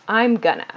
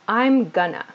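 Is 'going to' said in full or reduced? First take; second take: reduced; reduced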